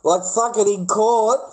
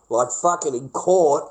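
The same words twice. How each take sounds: First: High, slow disbelief; incredulous. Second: Said in the usual way. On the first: Real, not acted. Vlogger stunned his meme videos were used in court, incredulous. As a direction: stretch it out in disbelief.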